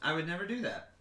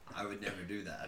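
First: It is said in a normal voice. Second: It is said in a put-on deep voice. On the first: "saying it with a smile" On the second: "What is that voice? ... why go deeper?"

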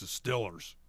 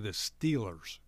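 First: Said in a Pittsburgh accent, like 'Stillers'. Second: Said in a standard accent, like 'Steelers'.

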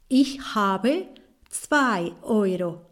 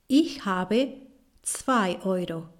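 Both takes have the same delivery.

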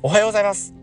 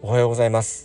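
First: It is said in a lively, energetic way. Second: It is said in a plain, ordinary way.

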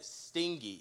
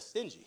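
First: The middle sounds like the word sting. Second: The middle has a soft j sound. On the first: The speaker calls it wrong. "he read stingy instead of" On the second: The speaker calls it right. "instead of stingy"

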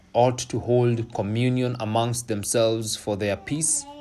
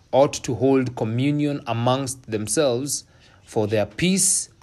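Both takes have the same delivery.

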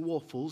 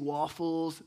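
First: It is said with a British accent. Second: It is said with an American accent.

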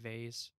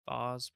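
First: The word is given a plain, ordinary pronunciation. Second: The word is given a fancy-sounding pronunciation. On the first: This is the version used around non-English people. "I'd probably just say vase" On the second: This is the version used around parents. "Sounds fancy"

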